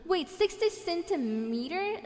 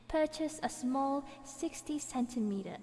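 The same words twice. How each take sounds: First: Higher, slow, rising "sixty centimeter"; can't believe the size; puzzled rising repeat; incredulous question. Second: Said in the usual way. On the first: Real, not acted. Doubting the size just read.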